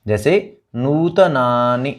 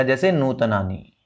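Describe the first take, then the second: First: नूतनानि slowly, with a light stress on the syllable before the short final i. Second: नूतनानि with the final i stretched long, no stress on the vowel before it; the wrong way: draw the last i of नूतनानि out long; नूतनानि ending in a long ii. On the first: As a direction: say नूतनानि with a short i at the end and lean on the vowel before it. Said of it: "पिछले स्वर पे अगर थोड़ा सा बलाघात करेंगे". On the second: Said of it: "फिर ये आपका बड़ा हो जाएगा". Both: Shown as a demonstration.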